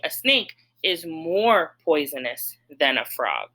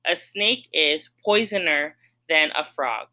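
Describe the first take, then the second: First: Said in the usual way. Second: Mock trial of a wrong form; deliberately wrong form. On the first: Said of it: "So I would have to say". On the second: Shown as a demonstration. Teacher testing a wrong form for students, mock trial. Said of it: "Let's try it".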